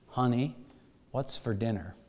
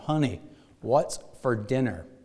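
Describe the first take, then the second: First: It is said softly and quietly. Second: It is said a little louder. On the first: "he softly said" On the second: "a little louder this time"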